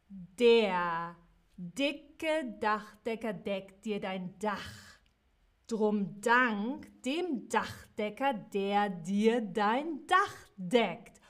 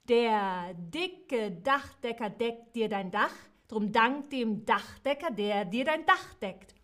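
First: It is said a bit more slowly. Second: It is said at normal speed.

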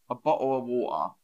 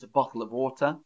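First: It is said in a London accent. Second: It is said in the speaker's usual British accent. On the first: "But some people might say a bottle of water" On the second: "So I'll say it how I say it first"

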